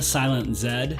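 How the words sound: The Z is said the Canadian way.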